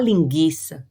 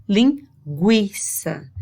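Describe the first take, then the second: First: LINGUIÇA mispronounced as lin-GHI-ça, no W sound; silent U in LINGUIÇA. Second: LINGUIÇA slowly split as lin... GWI-ça; U sounded in LINGUIÇA. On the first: Teacher showing what one doesn't say, U dropped from LINGUIÇA. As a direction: say "linguiça" with a hard G straight into the I. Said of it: "Você não fala linguiça". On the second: Teacher showing what one does say, U sounded slowly in LINGUIÇA. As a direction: say "linguiça" slowly, a clear W after the G. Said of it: "Você escuta o som do G". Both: Shown as a demonstration.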